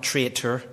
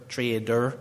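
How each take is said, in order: First: "traitor" with a crisp T in the middle; clear T. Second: "trader" with a voiced D in the middle; clear D. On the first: Preacher showing the word he does not mean, clear-T "traitor". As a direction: say "traitor" sounding the middle T distinctly. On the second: Preacher clarifying his Irish-accented word, clear-D "trader". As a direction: say "trader" with a soft D, not a T. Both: Shown as a demonstration. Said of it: "that's my Irish accent, not traitor".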